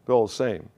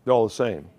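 Both takes have the same delivery.

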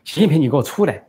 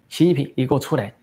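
First: Calls out 习近平 loudly and higher, stress on 近, falling; shouting for 习近平 to come out; impatient shout. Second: 习近平 called out with stress on 近, falling, a bit higher; loud call-out. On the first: Daughter shouting at Xi Jinping, impatient and loud. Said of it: "这孟晚舟不耐烦地说". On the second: Daughter calling Xi Jinping out, loud. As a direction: shout 习近平 as a challenge. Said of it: "孟晚舟大声说". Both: Retold or imitated.

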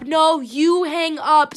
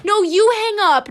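First: Slow, loud teasing insistence; drawn-out playful protest. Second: High, loud teasing protest; playful mock protest. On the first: Pretend. Host dragging out a lovey phone goodbye, slow teasing protest. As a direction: stretch out the playful comeback. Mock lovers' goodbye, second round. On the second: Host pretending a lovey phone goodbye, playful high protest. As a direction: throw it back playfully, pitched up and loud.

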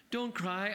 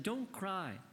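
First: Pleading. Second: Tender plea. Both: A narrator's reading. Mother comforts crying daughter.

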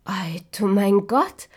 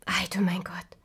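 First: Louder, slowed exclamation of wonder; loud astonished cry. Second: Whispered wonder; hushed amazement. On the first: Dwarves marvelling at the girl, loud slow cry. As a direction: cry it out slowly in amazement. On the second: Dwarves seeing the sleeping girl, whispered awe. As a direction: breathe it in awe. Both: Acted. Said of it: "riefen sie".

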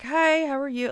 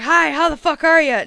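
First: Polite greeting. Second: Brash, louder, higher hello; loud rude greeting. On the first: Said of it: "Like, I'm very polite". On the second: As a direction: bark a crude hi at a stranger. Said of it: "I wouldn't just be like". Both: Retold or imitated.

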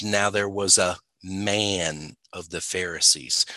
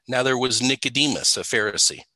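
First: "man" held long after a small pause; stress on man. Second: Said in the usual way. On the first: Retold or imitated. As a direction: quote it, singling out "man". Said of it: "And then he goes". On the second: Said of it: "and just say".

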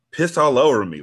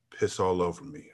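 First: Louder, higher incredulous echo; incredulous repeat. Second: Low, soft mumbled request; mumble. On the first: Real, not acted. Reader reacting to the story, incredulous. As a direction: repeat it in disbelief. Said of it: "like, damn". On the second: A narrator's reading. Juan mumbling his request, quiet. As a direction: mutter it under the breath. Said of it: "I then heard him mumble".

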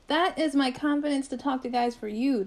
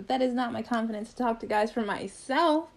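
First: "you" stressed as the contrast with "myself". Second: "not" and "myself" stressed in contrast. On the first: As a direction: lean on "you" to make the distinction. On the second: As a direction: lean on "not", then land on "myself". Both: Retold or imitated.

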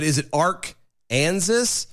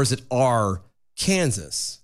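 First: "Arkansas" said slowly as ARK, pause, AN-zis; split as Ark-ansas. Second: "Arkansas" said slowly as AR, pause, KAN-zis; split as Ar-Kansas. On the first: Co-host asking which pronunciation, "Arkansas" split as ARK-anzis. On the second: Co-host offering the other pronunciation, "Arkansas" split as AR-Kansas. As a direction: break "Arkansas" before the k, as Are ... KANSAS. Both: Shown as a demonstration.

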